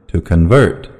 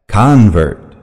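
First: Convert stressed on the second syllable, con-VERT. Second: Convert stressed on the first syllable, CON-vert. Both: Shown as a demonstration. Noun and verb stress drill.

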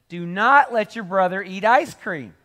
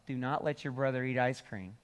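First: Higher and louder, leaning hard on not; emphatic final warning. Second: Said in the usual way. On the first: Retold or imitated. Mom's third warning to the kid at home, loud and stressed. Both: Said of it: "emphasize something like three times".

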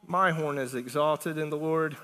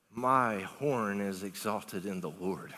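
First: Said in the usual way. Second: Slow, low, soft scripture reading; slow reverent reading. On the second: Acted. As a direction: draw out each word slowly in a low voice. Reads Hannah's prayer, drawn out.

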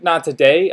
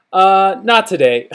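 First: "today" lifted into a question; questioning echo. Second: Hesitant, drawn-out brush-off with a falling end; awkward, slow refusal; sketchy excuse. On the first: Acted. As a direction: repeat "Not today" back with a rising, querying end. Acted cashier questions his excuse. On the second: Retold or imitated. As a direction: stall on "Uh", then let "not today" drop. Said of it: "such a sketchy little answer".

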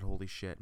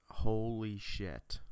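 First: Said in the usual way. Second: Slow, drawn-out "Holy shit"; imitated awed reaction. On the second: Brother stunned by the game's graphics, imitated awe. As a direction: stretch both words in retold amazement.

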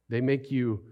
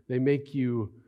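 The two takes are said the same way.

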